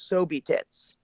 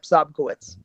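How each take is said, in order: First: The name is said as 'Sobe Tits'. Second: The name is said with a 'ko-witz' middle. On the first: The speaker calls it wrong. "my personal favorite is Sobe Tits" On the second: The speaker calls it right. "Yep, Sobkowitz"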